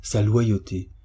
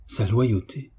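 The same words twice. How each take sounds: First: Understated bitterness, falling at the end; bitter. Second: Understated bitter question. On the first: Friend dismisses the deceiver's loyalty, mildly bitter. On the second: Friend questions the deceiver's loyalty, mildly bitter. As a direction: echo it as a doubting question. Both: A narrator's reading. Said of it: "s'écria Ernestine avec amertume".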